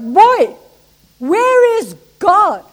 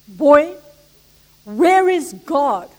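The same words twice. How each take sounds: First: It is said louder. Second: It is said at normal volume.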